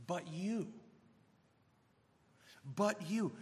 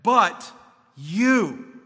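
First: "But you" dropped to a much softer, hushed voice; hushed emphasis. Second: "But you" punched out, much louder; emphatic "But you". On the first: Preacher rereading "But you" to his flock, hushed. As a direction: lean in and let "But you" fall quietly. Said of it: "let me just carefully emphasize". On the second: Preacher hammering home "But you" to the congregation, loud. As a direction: slam the words "But you" down hard. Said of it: "and it's very emphatic". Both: Shown as a demonstration.

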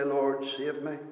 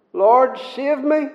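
First: Quiet prayer. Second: Pleading prayer. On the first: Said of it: "to say". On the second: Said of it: "doesn't he have to say". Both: Retold or imitated.

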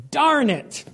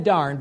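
First: High, loud outburst of frustration; angry yell. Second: Said in the usual way. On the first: Retold or imitated. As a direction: blurt it out sharply, losing your temper. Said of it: "I just yelled". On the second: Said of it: "And I said".

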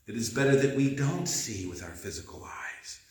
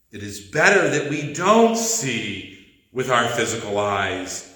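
First: Much softer, almost to oneself; soft repeat. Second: Said in the usual way. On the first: Shown as a demonstration. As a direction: let it sink in, quietly. Repeats the line, second softer.

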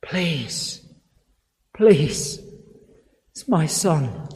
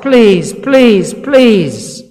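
First: Hushed, broken plea, much softer; a soft, desperate whisper of a plea; quiet begging. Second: Louder pleading, each please pushed harder; father begging Jesus, rising to a loud plea; imploring cry. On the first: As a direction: beg under the breath for a dying son. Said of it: "He begs". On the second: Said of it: "he begs and he implores". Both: Retold or imitated.

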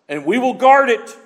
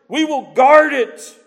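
First: Guard it raised high; firm pulpit vow; "guard" stressed strongly; emphatic. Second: "guard" stretched, higher and louder; slow the repeat down and lean on "guard"; slower stronger echo. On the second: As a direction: climax repeat of "We will guard it". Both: Real, not acted.

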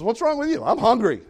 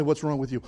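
First: Wife snapping higher and louder; mock angry, higher and louder; the wife's hangry outburst at her husband. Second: Said in the usual way. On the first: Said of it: "And she says". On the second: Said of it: "And people say".

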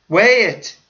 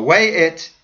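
First: "weigh it" higher and louder; emphatic. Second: Said in the usual way. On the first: Acted. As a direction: press the repeated "weigh it" harder. Repeated command, higher.

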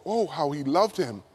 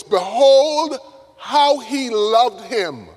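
First: Low, soft, tender reading; hushed wonder. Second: High, loud BEHOLD, then drawn out; awed exclamation. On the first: Preacher rereads what the mourners said, hushed wonder. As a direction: breathe out the verse in quiet awe. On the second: Onlookers at Lazarus's funeral marvel at Jesus, awed exclamation. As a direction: marvel aloud, stretching the words. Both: Acted.

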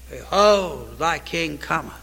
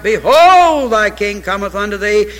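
First: Lower, soft, near-hushed reverent delivery; the preacher falls soft to let the verse sink in. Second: The preacher calls out Behold to the church, loud; proclaimed verse. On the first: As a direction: drop to awe after the shout. Hushed after the climax. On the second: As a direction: ring out the word Behold, then settle. Repeating the key verse. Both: Acted.

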